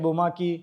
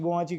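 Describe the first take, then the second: First: The middle consonant is a 'k' sound. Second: The middle consonant is a 'ch' sound. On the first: This is how the name is actually said. The speaker calls it right. "है बोमाकी" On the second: This is how most people misread the name. The speaker calls it wrong. "लोग बोमाची बोमाची करेंगे"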